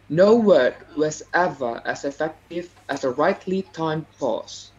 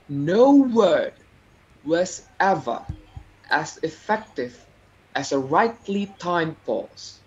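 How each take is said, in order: First: It is said plainly, with little variation. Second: It is said with varied intonation and pauses.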